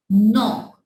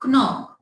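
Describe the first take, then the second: First: Said in the usual way. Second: "knock" with the silent K sounded before the N; wrong pronunciation. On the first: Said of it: "we will pronounce like". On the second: Shown as a demonstration. Teacher shows students how not to say it, K sounded in "knock". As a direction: say "knock" as k-nock, voicing the K. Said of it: "no, it's wrong".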